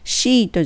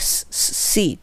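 First: It starts with a Japanese 'shi' sound. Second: It starts with an English 'see' sound. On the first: The speaker calls it wrong. "シートじゃなくて" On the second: The speaker calls it right. "シートじゃなくてseat belt"

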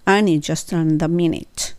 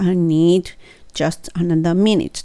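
First: The d at the end of need is dropped. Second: The d at the end of need is clearly pronounced. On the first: "でいいです" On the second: "はっきり言う必要ないです。I need just another minute っていう必要なくって"

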